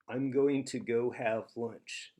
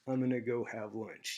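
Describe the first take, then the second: First: Going to is said fully, every sound clear. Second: Going to is squeezed into one short reduced word.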